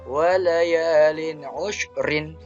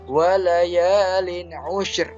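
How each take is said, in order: First: The last word ends with an added -in. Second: The last word ends on a bare r. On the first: The reading continues without stopping. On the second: The reader stops at this word. "ro ini adalah sukun karena dia waqaf"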